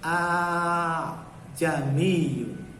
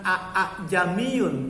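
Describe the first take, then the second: First: The second hamzah is softened and blurred. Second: Both hamzah sounds are pronounced clearly. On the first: The speaker calls it right. "yang kedua dilunak. Bagaimana? Ini tashil" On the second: The speaker calls it wrong. "Maka cara bacanya bukan a a jamiyun"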